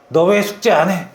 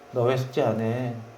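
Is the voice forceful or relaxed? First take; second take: forceful; relaxed. First: It is said forcefully with strong energy. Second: It is said softly with little energy. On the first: The speaker sounds harsh and pressuring. The speaker calls it wrong. "이렇게 말하지 말고" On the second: The speaker sounds gentle and not pressuring. The speaker calls it right. "그냥 힘을 빼라고요"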